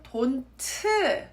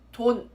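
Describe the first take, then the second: First: The final consonant becomes a whole extra syllable. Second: The final consonant is not fully pronounced. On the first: "pronounce it as a whole new syllable" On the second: "not pronounce the uh, last consonant sound completely"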